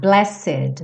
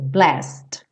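First: The E of the ending is pronounced. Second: The ending is a bare consonant with no vowel. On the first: The speaker calls it wrong. "Lembrando de não falar blessed" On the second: The speaker calls it right. "fica parecido um pouco com best"

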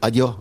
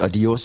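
First: The final s is dropped, Andalusian style. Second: The final s is pronounced, standard Spanish.

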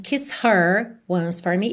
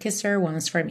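First: The h of 'her' is pronounced. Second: The h is dropped, linking into 'kisser'. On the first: "A gente não tem kiss her once for me" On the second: "a gente escuta bem assim, kisser"

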